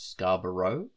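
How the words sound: The name is pronounced in an American way. "in American vernacular it's Scarborough"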